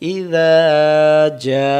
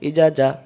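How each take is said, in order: First: The final vowel is held long. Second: The final vowel is cut short. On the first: The speaker calls it right. "এক আলিফটা তখন চার আলিফ টান দিতে হবে" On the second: The speaker calls it wrong. "আও পড়ি না। তাহলে আমরা আলিফগুলো বাদ দিয়ে দিয়ে ফেলি।"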